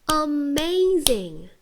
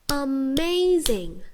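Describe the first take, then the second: Both takes have the same delivery.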